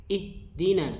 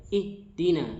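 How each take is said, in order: Both takes have the same delivery.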